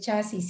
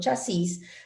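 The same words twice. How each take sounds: First: The stress is on the first syllable. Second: The stress is on the last syllable. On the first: "en México no se dice chasis" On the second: "sino chasis, también es correcto"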